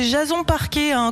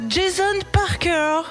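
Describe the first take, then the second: First: The surname ends with a French-style 'ay' sound. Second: The surname ends with an English-style 'er' sound. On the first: The speaker calls it right. "moi, c'est Jason Parquet" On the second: The speaker calls it wrong. "qui les prononcent mal"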